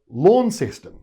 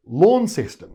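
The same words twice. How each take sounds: First: It is pronounced the mainland Australian way. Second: It is pronounced the mainland Australian way.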